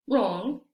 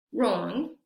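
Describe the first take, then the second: First: "wrong" said rong, no w; "wrong" starting straight on r, rising; teacher demo of "wrong", w dropped; silent w. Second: "wrong" again rong, no w; rising repeat of "wrong", starting on r; silent w repeat. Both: Shown as a demonstration. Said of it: "Vamos a ver cómo se pronuncian estas palabras".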